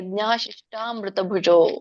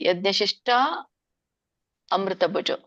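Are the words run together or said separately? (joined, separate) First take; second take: joined; separate. First: Shishta and amruta merge into one word. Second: Shishta and amruta are said as separate words. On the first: "ನೀವು ಕೂಡಿ ಹೇಳೋರಿದ್ರೆ" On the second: "ಅಲ್ಲಿ ಅ ಹಚ್ಬೇಕು"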